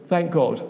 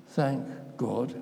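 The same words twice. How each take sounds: First: Mechanical grace. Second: Meant sincerely. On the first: Retold or imitated. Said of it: "awfully mechanical". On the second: Shown as a demonstration. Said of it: "did they mean what they said".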